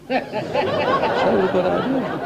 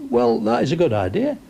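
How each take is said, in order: First: Slow, laugh-filled echo of his own punchline; laughing repeat. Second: Said in the usual way. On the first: Real, not acted.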